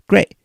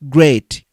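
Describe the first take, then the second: First: The final T sound is silent. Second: The final T sound is clearly released. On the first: The speaker calls it right. "This silent T" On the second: The speaker calls it wrong. "not great"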